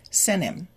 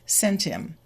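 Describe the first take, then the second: First: The T is dropped, said faster. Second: The T is kept and linked to 'im'. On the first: "If we say it faster, the T will be deleted" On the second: "the T from sent moves to the I"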